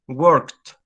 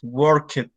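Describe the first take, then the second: First: The ending is a single T sound. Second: The ending is an extra syllable. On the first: The speaker calls it right. "Worked is with a T sound" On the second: The speaker calls it wrong. "Never in life do that"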